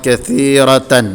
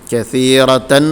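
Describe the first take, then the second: Both takes have the same delivery.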